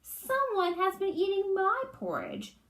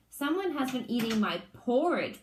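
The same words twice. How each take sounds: First: Much higher mama bear cry; mama bear finds her porridge touched, high cry. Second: A hint of a big bear's bellow; mild big bear bellow; papa bear finds his porridge eaten, mock bellow; lightly bellowed Papa Bear. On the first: Acted. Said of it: "cried in her medium-sized voice". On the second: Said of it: "bellowed in his great big voice".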